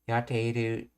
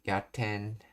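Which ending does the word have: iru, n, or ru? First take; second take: iru; n. First: The word is said in full, ending in iru. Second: The ending is reduced to a nasal n.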